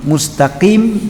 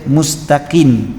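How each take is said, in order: First: The word ends with an m sound. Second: The word ends with an n sound. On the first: The speaker calls it right. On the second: The speaker calls it wrong.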